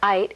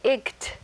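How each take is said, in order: First: Long i with a silent gh, like night. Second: Short i with a hard g, like igt. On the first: The speaker calls it right. "the actual sound is ite, as in night" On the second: The speaker calls it wrong. "if you were to sound this out, it would say"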